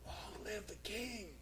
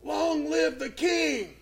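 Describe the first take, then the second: First: Much softer and slow, as if from under a stone; muffled call from beneath the stone; Daniel answering faintly from inside the den. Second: Higher, slow ringing shout; Daniel's triumphant reply to the king; proclaimed call. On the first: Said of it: "a muffled voice came out from beneath that stone". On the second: Daniel calls up from the den. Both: Retold or imitated.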